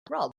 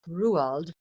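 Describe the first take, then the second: First: The name is said the English way. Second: The name is said the Norwegian way. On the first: The speaker calls it wrong. "and not Roald" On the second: The speaker calls it right. "Roald Dahl is Norwegian. That's why it is pronounced Roald"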